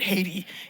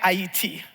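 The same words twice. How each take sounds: First: The name is said with an American English pronunciation. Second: The name is said with a local Haitian pronunciation.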